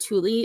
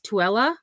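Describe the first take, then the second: First: The name is said as Thule. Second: The name is said as Tooele. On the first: The speaker calls it wrong. "I was not saying the correct pronunciation. It is not Thule" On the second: The speaker calls it right. "it is Tooele"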